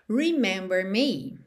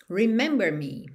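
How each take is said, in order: First: It is said as a statement, a command. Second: It is said as a statement, a command.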